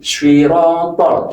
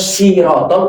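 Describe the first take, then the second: First: It starts with a heavy s, almost like sw. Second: It starts with a plain, light s sound. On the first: The speaker calls it right. "seakan-akan ada huruf w-nya" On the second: The speaker calls it wrong. "Kalau sirotol berarti berubah huruf sin"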